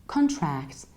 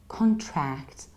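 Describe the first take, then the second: The two takes are said the same way.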